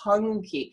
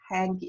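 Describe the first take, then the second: First: The first vowel sounds like in 'hunk'. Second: The first vowel sounds like in 'hank'. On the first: This is how the name is actually said. The speaker calls it right. "it's Hunky" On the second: This is how the spelling reads. The speaker calls it wrong. "I know it says Hanke"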